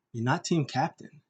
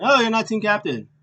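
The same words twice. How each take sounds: First: Said in the usual way. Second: Much higher and louder taunt; mocking shout. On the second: Teammates shouting down AJ's claim to be captain, mocking yell. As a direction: yell it back at him in mockery.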